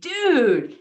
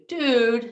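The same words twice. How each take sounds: First: It sounds enthusiastic, like the Fonzie. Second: It sounds disappointed and deflated.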